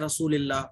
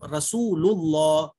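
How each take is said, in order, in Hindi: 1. 'l' की आवाज़ हल्की और पतली है। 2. 'l' की आवाज़ भारी और मोटी है। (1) "रसूलिल्लाह अगर आप पढ़ोगी तो गलत हो जाएगा" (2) "यहां पे भी मोटा लुल"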